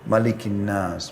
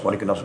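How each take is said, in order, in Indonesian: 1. Dibaca dengan pelan, lalu diikuti berhenti. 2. Dibaca dengan cepat dan tergesa-gesa, terus menyambung. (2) "seperti orang terburu-buru"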